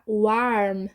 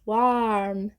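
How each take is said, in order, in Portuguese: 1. A vogal soa como um a aberto. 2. A vogal soa como um a aberto.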